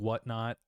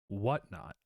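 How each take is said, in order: First: The word whatnot is said lightly, without emphasis. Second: The word whatnot is said with strong emphasis. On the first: It is a vague filler meaning other such things. The speaker calls it wrong. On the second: It names a specific thing as the topic. The speaker calls it right.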